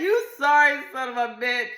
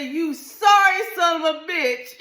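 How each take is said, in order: First: High, loud and laughing; laughing retelling. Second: High, loud yell; yelled insult. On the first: Wife retells yelling at husband, laughing. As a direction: laugh through the insult. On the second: Wife yells at husband over birth control, high and loud. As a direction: yell it right at him. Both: Retold or imitated. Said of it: "I yelled it out".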